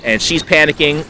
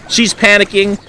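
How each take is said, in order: First: Said in the usual way. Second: Alarmed repeat. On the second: Retold or imitated. Repeats it, voice jumps up.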